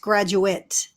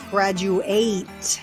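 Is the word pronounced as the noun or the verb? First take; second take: noun; verb. First: It is pronounced the way the noun is. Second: It is pronounced the way the verb is. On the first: It names a person who finished school. "If it's a noun, then he it's graduate" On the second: It names the act of finishing school. "If it's a verb, then it's graduate"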